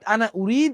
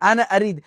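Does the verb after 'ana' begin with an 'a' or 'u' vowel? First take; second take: u; a. First: The verb begins with a 'u' vowel. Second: The verb begins with an 'a' vowel. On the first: This is the formal written standard form. "Standard Arabic ল্যাঙ্গুয়েজের মধ্যে" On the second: This is the everyday spoken dialect form. "আমরা বলবো আনা আরিদ"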